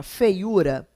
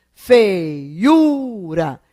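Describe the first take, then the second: First: Said in the usual way. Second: FEIURA drawn out syllable by syllable, loud on the U; teacher sounding out Feiura with a long, loud tonic U; stressed U. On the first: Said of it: "a palavra feiura". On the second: Shown as a demonstration. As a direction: stretch Feiura as fei-UUU-ra, leaning hard on the U. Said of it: "Esse U é tônico?".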